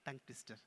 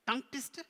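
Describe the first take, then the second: First: Said in the usual way. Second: Higher puppet question; puzzled puppet. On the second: Pretend. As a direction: query it as the puppet. Puppet queries the term.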